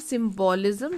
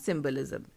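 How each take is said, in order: First: The second syllable has a full 'o' vowel. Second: The second syllable has a reduced, weak vowel. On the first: The speaker calls it wrong. "इसको हम सिंबोलिज्म नहीं बोलते हैं" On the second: The speaker calls it right. "इसको हम बोलते हैं सिंबलिज्म"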